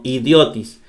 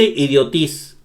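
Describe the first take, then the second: First: Idiotis stressed on the O, idiÓtis; correct middle stress. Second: Idiotis wrongly stressed on the last syllable, idioTÍS; wrong final stress. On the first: Teacher correcting the wrong versions, stress idiÓtis. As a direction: land firmly on the O in idiotis: idiÓtis. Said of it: "No, idiotis". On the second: Teacher showing how not to say it, stress idioTÍS. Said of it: "No dice idiotis o idiotis". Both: Shown as a demonstration.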